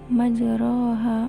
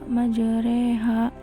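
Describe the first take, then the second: First: The vowel after r sounds like 'a'. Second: The vowel after r sounds like 'e'.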